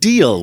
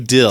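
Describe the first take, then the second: First: The vowel is a long 'ee' sound. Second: The vowel is a short 'i' sound. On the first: "Instead of saying deal" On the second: "we say dill"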